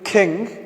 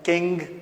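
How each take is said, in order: First: Standard pattern, with the k aspirated. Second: Pakistani accent, with the k unaspirated.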